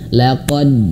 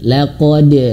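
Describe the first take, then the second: First: The final d bounce is held back. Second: The final d bounce is released freely. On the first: The speaker calls it wrong. "hanya mantul tapi tertahan" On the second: The speaker calls it right. "mantulkan saja tanpa tertahan"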